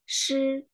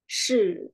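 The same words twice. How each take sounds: First: The syllable carries the Mandarin first tone. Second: The syllable carries the Mandarin third tone. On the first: "Kalau nada pertama berarti shi" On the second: "Nada ketiga, o"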